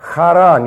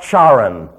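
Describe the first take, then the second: First: The first sound is a light throaty guttural. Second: The first sound is like English ch. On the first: The speaker calls it right. "You notice the light guttural" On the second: The speaker calls it wrong. "It's not charan. That's somebody's name"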